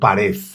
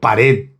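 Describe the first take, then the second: First: The word ends with the Madrid-style final sound. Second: The word ends with the standard final sound. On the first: "En Madrid se dice mucho pared" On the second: "Pero pared, pared ya vale"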